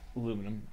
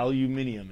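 First: It has four syllables, ending in -num. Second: It has five syllables, ending in -nium.

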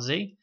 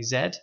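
First: It is said the American way, as zee. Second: It is said the British way, as zed.

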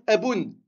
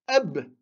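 First: The word ends with an added 'oun' sound. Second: The word ends on a bare consonant. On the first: The speaker calls it wrong. "On ne va pas dire eboun" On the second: The speaker calls it right. "On va dire eb"

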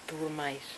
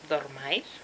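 First: The first vowel is pronounced as u. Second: The first vowel is pronounced as o. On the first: The speaker calls it wrong. "Suena fatal" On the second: The speaker calls it right. "Suena mucho más fino"

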